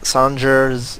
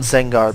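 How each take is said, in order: First: The name begins with an S sound. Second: The name begins with a Z sound. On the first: This follows the written spelling. "I know it says Sanger" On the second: This follows the Japanese pronunciation. "that's how you pronounce it in Japanese"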